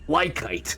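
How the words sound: It is said with a heavy American pronunciation. The speaker calls it wrong. "I'll just grossly Americanize it"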